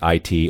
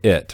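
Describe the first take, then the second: First: Each letter is spoken separately. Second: It is spoken as one short word. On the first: The acronym is read as initials. "the letters read as initials" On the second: The acronym is read as a word. "as some kind of word"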